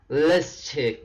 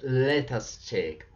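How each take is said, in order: First: The words are said as one contracted word, 'let's'. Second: The words are said as two separate words, 'let us'. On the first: The speaker calls it right. "So the right intonation" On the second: The speaker calls it wrong. "It's not let us check"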